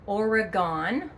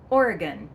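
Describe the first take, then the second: First: The last syllable sounds like 'gone'. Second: The last syllable sounds like 'gun'. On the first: The speaker calls it wrong. "It is not Oregon" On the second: The speaker calls it right. "Say it quickly, ... it's gun at the end, not gone"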